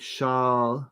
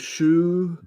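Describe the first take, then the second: First: The vowel is a long open 'ah'. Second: The vowel is a rounded 'oo'. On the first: "a long A" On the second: "Duvid will say it's it's an U"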